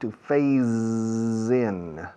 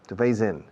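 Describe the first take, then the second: First: The phrase is drawn out and overemphasized. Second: The phrase is said at ordinary speed and stress. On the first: "Excuse the exaggeration" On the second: "is normal"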